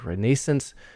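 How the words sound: It is said with a British pronunciation. "The British often say"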